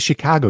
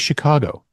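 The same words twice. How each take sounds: First: The word has a hard Midwestern vowel. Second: The word has a softer, non-Midwestern vowel. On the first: This is how most Chicagoans say it. "that Midwestern hard vowel sound" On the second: This is how the guest says it. "you say Chicago"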